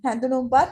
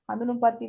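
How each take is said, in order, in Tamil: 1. முதல் உயிரெழுத்து முன் 'ae' ஒலி. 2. முதல் உயிரெழுத்து திறந்த 'ah' ஒலி. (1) "நாக்கு வெளியே வரணும்" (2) "சிலவங்க ஹந்துனும்பத்னு சொல்றாங்க இல்லையா ஹந்துனும்பத் இல்ல"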